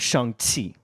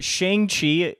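First: The name is said with Mandarin sounds. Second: The name is said with English sounds. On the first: The speaker calls it right. "The actual Chinese" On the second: The speaker calls it wrong. "a gross mispronunciation of the words"

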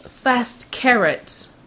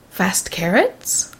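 First: The voice falls at the end. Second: The voice rises at the end, like a question.

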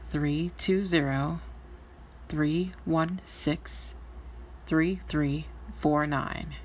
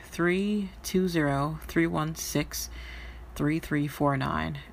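First: The number is said slowly. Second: The number is said at normal speed.

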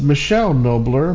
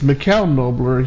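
First: The first name sounds like English Michelle. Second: The first name does not sound like Michelle. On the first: The speaker calls it wrong. "we said his name in the past was Michelle Nobler" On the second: The speaker calls it right. "but it's Michele Nobler"

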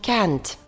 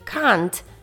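First: It is said in an American English accent. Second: It is said in a British English accent. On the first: "А в American English ми скажемо can't" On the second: "у British English це звучить як can't"

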